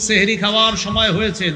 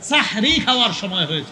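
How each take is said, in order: First: The first word begins with the syllable 'seh'. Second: The first word begins with the syllable 'sah'. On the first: It means it is time to eat magic. The speaker calls it wrong. "সেহরুন মানে তো জাদু" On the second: It means it is time for the pre-dawn meal. The speaker calls it right. "সাহরুন পবিত্র খাদ্য"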